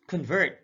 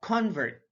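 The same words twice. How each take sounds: First: ConVERT, second syllable stressed; careful demo of conVERT. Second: CONvert, high full CON; careful demo of CONvert; stress on first syllable. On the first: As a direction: say "convert" as kun-VERT. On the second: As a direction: say "convert" as KAHN-vert. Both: Shown as a demonstration. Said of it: "stress is the verbal emphasis used".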